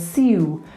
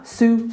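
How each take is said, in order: First: The syllable is 'syoo', with a y-glide. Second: The syllable is plain 'soo', no y-glide. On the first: This is an older pronunciation. "rather than siu" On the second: This is a modern Cockney pronunciation. "su, su, su, rather than siu"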